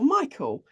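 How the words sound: The name is said the English way. "in the U K, we say Archangel Michael"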